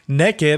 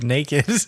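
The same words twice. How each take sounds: First: The first vowel sounds like in neck. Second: The first vowel sounds like in name. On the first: It suggests humorous, sexually suggestive nakedness. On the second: It means plainly unclothed.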